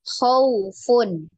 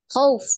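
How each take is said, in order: First: The word is pronounced softly and smoothly. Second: The word is pronounced harshly and abruptly. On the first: The speaker calls it right. "tapi dengan lembut ya" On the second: The speaker calls it wrong. "jadi bukan khauf, khauf ya, tidak seperti itu ya"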